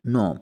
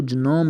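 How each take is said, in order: First: नोम said nome, g silent; right pronunciation. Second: जनोम with the g sounded, ga-nome; wrong pronunciation. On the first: Teacher giving learners the correct version, g silent. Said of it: "अब इसको जनोम नहीं". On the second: Teacher warning learners about the wrong version, g sounded. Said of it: "नहीं की-, कहिएगा, नोम". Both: Shown as a demonstration.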